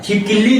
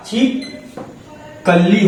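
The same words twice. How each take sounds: First: छिपकिली said "chhip-kil-lee"; छिपकिली with "kil" in the middle; rejected pronunciation. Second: छिपकली broken slowly into "chhip... kal-lee"; slow छिपकली with "a" after the k; corrected pronunciation. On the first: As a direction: put an "i" after the k in छिपकिली. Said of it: "छिपकिली नहीं होता". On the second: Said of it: "छिपकली होता है". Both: Shown as a demonstration.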